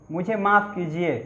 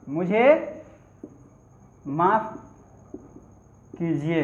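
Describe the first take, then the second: First: Said in the usual way. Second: मुझे, माफ़, कीजिए each said alone with long pauses between; word by word. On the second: Shown as a demonstration. Teacher repeating for students, slow word by word.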